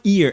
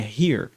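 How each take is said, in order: First: The word starts without an h sound. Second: The word starts with a breathy h sound. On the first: The speaker calls it wrong. "não é ear" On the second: The speaker calls it right. "é here"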